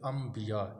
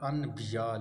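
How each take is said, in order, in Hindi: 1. b से पहले 'm' की आवाज़ आती है। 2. b से पहले 'n' की आवाज़ आती है। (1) "क्या पढ़ा जाता है उसे अम्बिया" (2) "असल लफ्ज़ हो क्या है अनबिया"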